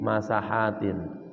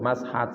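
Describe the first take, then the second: First: An a vowel follows the s. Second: The s is followed directly by the h. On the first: The speaker calls it right. "dibaca dengan fathah sin" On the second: The speaker calls it wrong. "jangan sukun, mashat salah"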